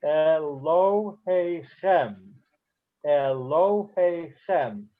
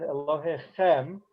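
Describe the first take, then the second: First: "Elohe Chem" very slowly, slight stress on "lo", main stress on "Chem"; secondary stress. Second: "Elohe Chem" with the main stress on "Chem"; final-syllable stress. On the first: Teacher demonstrates a secondary accent, "Elohe Chem" slow with stresses on "lo" and "Chem". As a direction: draw out "Elohe Chem", leaning lightly on "lo", fully on "Chem". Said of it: "There's a slight stress on lo, but the main stress is on the last word". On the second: Teacher shows a milra word, "Elohe Chem" stressed on "Chem". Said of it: "it's Milra, accent". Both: Shown as a demonstration.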